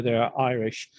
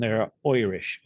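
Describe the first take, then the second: First: Said in the usual way. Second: Irish said as "Oirish", opening with an oy sound; mock Oirish. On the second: Shown as a demonstration. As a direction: stretch Irish into a stage-Irish "Oirish". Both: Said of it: "there are Irish and there are Irish".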